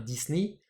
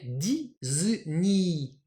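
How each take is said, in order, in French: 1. Le mot se prononce à l'anglaise. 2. Le mot se prononce à la japonaise. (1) "qu'on va prononcer alors en anglais" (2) "Donc en japonais"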